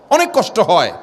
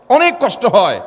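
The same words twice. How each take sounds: First: Said in the usual way. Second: অনেক hit higher and held long; stress on অনেক. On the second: Acted. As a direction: lean hard on অনেক. Repeated phrase building in sermon.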